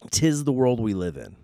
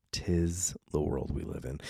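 First: Raised pronouncement. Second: Low, soft aside; subdued repeat. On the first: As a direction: declare it in a lifted voice. Repeats closing remark in two ways. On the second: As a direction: let it sink lower and softer. Repeats closing remark, subdued second time. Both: Real, not acted.

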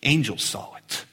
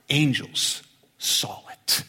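First: Said in the usual way. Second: Hushed secret reveal; slow breathy whisper of angels. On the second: Shown as a demonstration. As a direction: whisper the answer slowly. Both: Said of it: "I'll tell you who saw it".

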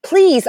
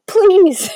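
First: High, drawn-out please; pleading please. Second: High, tired please; exasperated please. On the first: Fan pleading with talking neighbours, high please. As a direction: beg them to stop, pitched up. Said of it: "I was like". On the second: Fan begging couple again, high exasperated please. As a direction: plead again, wearier. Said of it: "I was just like". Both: Retold or imitated.

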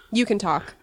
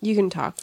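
First: "You" leaned on, falling; "You" gets the push, "can" stays light; stress on you. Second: "can" leaned on, falling; "can" gets the push, "You" stays light; stress on can. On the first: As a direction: say "You can talk" with the weight on "You". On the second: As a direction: say "You can talk" with the weight on "can". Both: Shown as a demonstration.

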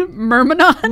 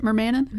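First: "Myrmidon" said MUR-mi-don with a laugh, rising; corrected pronunciation. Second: "Mermanin" said as mer-MAN-in, doubtfully asked; questioning pronunciation. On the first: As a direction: offer "Myrmidon" as MUR-mi-don, amused and higher. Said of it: "Myrmidon makes more sense". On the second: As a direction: query the odd name "Mermanin" as MER-ma-nin. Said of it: "Is that how you pronounce it?". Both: Shown as a demonstration.

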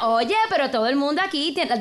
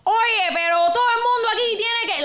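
First: A lighter Puerto Rican take on the line; Puerto Rican accent. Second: Fast, high Cuban Spanish impression; Cuban accent. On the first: Retold or imitated. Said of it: "that's a very different". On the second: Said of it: "I was doing a Cuban accent".

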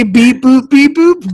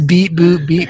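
First: Higher, louder mock beeps; robot beeps. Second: Lightly voiced flat beeps; robot beeps. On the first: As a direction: beep it like a sing-song computer. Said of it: "you would say". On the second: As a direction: say beep boop almost plainly. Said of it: "she apparently says".

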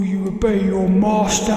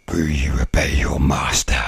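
First: Slow, somewhat deeper demon voice; a hint of a demon master. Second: A whispered, breathy demon voice from far off; ghostly whispered master voice; deep demon voice. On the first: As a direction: loom over the listener, slowly. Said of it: "like a demon talking". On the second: Retold or imitated. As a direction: hiss it like a demon testing you. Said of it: "in a really deep voice".

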